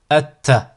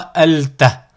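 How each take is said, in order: First: No l sound; the t is doubled. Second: An l sound is heard before the t. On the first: The speaker calls it right. "on ne va pas prononcer le lam" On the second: The speaker calls it wrong. "Vous n'aurez jamais euh, la prononciation alta"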